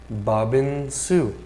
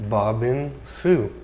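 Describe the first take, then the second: Both takes have the same delivery.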